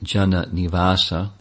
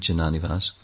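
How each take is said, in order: First: The name ends with a final a vowel. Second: The name ends on a consonant, no final vowel. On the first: The speaker calls it right. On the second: The speaker calls it wrong.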